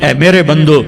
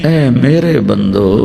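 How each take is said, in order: First: It is said in a plain, unaffectionate tone. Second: It is said in a warm, loving tone. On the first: The speaker calls it wrong. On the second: The speaker calls it right.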